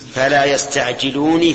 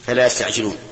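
First: The last word ends in n plus an i vowel. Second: The last word ends in a bare n sound. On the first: The reciter runs on into the next word. "إذا وصلت كيف تقول؟" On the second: The reciter stops after this word. "هذا لفظ الآية"

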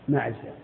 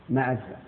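The two takes are said the same way.

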